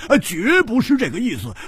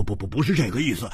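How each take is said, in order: First: 绝 pitched high and stretched; emphatic denial. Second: Quick, stammered denial; hurried denial. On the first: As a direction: hit 绝 hard and high to insist. 加重否认，第二遍. (把“绝”字拔高加重地否认) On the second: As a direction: blurt the denial out fast, stuttering on 不. 慌忙否认，第一遍. (慌忙结巴地否认) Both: Acted.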